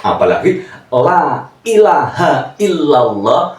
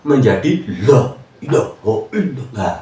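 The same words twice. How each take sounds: First: La ilaha illallah recited slowly and carefully; correct recitation. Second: La ilaha illallah slurred into loi lah ila; wrong recitation. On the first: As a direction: recite la ilaha illallah with full Arabic sounds. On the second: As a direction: mangle la ilaha illallah carelessly. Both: Shown as a demonstration. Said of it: "Ini, ini berbahaya".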